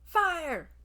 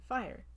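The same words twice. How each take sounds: First: The word is screamed loudly with alarm. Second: The word is said calmly at normal loudness. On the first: A fire is actually happening and people must leave. "if you scream fire" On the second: The talk is about fire in general or hypothetically. "if you say fire"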